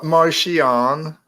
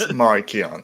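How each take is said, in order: First: The 'ch' is said as a soft SH sound. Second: The 'ch' is said as a hard K sound. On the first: The speaker calls it wrong. "It's not Martian" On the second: The speaker calls it right. "Pronounce it like a K"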